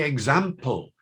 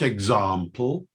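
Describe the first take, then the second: First: Example with a short A, as in cat. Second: Example with a long AH in the middle. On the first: Lecturer showing his own accent, short-A example. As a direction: say example the northern way, ex-AM-ple. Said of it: "I say example, not example". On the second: Lecturer showing southern English accent, long-AH example. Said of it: "not example". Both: Shown as a demonstration.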